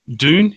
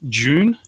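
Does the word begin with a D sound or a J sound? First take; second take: D sound; J sound. First: The word begins with a clear D sound. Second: The word begins with a J sound. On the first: This is how it is said to Americans. "I tend to pronounce the D" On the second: This is how it is said locally. "like with a J rather than a G"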